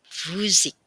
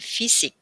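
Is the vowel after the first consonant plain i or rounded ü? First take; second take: rounded ü; plain i. First: The first vowel is a rounded ü sound. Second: The first vowel is a plain unrounded i. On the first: The speaker calls it right. "melainkan Physik" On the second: The speaker calls it wrong. "Jadi bukan fisik ya"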